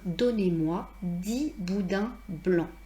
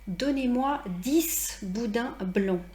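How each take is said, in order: First: The final consonant of dix is silent. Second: The final s sound of dix is pronounced. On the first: The speaker calls it right. "je dois changer ma prononciation" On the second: The speaker calls it wrong. "Pourquoi je ne dis pas"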